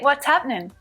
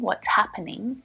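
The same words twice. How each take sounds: First: Happening is squeezed into two syllables. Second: Happening is said with all three syllables. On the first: It sounds more relaxed and casual. "happening reduced down to just two syllables" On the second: It sounds less relaxed. "it's still correct to say happening"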